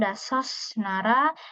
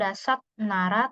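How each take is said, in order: First: The first word ends with an s sound. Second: The first word ends with a t sound. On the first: "bukan dasos nara" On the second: "bukan dasat nara"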